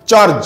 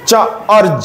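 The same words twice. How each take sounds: First: চার্জ in one falling syllable; blended word. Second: চা, short break, আর্জ; sounded out. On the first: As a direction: say চার্জ whole, no break. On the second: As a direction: split the word into চা and আর্জ. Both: Shown as a demonstration. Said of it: "একই রকম similar উদাহরণ".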